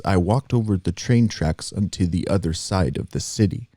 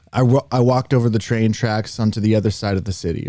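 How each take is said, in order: First: "I walked over the train tracks onto the other side of the city" in an even, monotone cadence with measured beats between syllables; lightly demonstrated steady measured rhythm, flat inflection; cadenced monotone. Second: Said in the usual way. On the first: Shown as a demonstration. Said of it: "very cadenced in that kind of way". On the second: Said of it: "let me give you an example".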